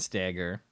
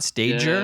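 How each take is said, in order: First: The first syllable sounds like 'stag'. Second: The first syllable sounds like 'stage'. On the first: The speaker calls it right. "So your name is Ben Stagger" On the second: The speaker calls it wrong. "not Stager"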